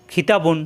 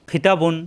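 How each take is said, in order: Both takes have the same delivery.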